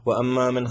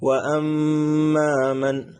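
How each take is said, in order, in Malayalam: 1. ഇരട്ടിച്ച മീം മൂളൽ ഇല്ലാതെ ചുരുക്കി മുറിച്ചാണ് ഉച്ചരിക്കുന്നത്. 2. ഇരട്ടിച്ച മീം മൂളലോടെ നീട്ടിയാണ് ഉച്ചരിക്കുന്നത്. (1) "അങ്ങനെയല്ല ഓതേണ്ടത്" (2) "മീമിനെ ഉന്നത്ത് ചെയ്ത് ഓതി"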